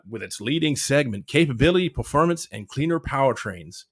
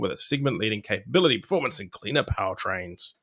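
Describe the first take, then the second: First: It is said in a put-on American accent. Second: It is said in the speaker's usual accent.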